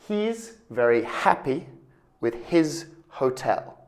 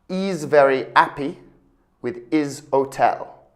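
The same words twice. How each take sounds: First: The H sounds are clearly pronounced in the words. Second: The H sounds are dropped from the words. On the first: The speaker calls it right. "What you should say, ... pronounce H" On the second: The speaker calls it wrong. "a French or an Italian speaker might say, ... but that's not correct"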